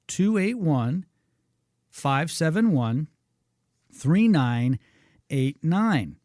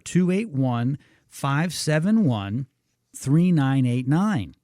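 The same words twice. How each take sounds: First: The number is read more slowly. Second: The number is read at a normal pace.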